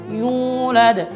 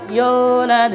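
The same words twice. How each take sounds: First: The u vowel is full with rounded lips. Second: The u vowel is weak and barely rounded. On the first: The speaker calls it right. "sempurnakan dengan vokal u" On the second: The speaker calls it wrong. "bukan dengan yulad"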